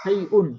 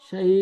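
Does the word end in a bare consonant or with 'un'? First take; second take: un; bare consonant. First: The word ends with a nasal 'un' syllable. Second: The word ends abruptly with no final vowel. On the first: The reader continues without stopping. "অক্ফ না করলে" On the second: The reader stops on this word. "আর অক্ফ করলে শাই।"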